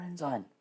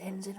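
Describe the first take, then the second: First: "ensign" as EN-zine, said softly; long-i ending. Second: "ensign" as EN-zin, said softly; short-i ending. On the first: Player softly checking the other option, "ensign" said EN-zine. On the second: Player softly checking the rank to themselves, "ensign" said EN-zin. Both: Shown as a demonstration. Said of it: "Is it ensign or ensign?".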